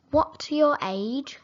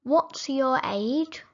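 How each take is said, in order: Both takes have the same delivery.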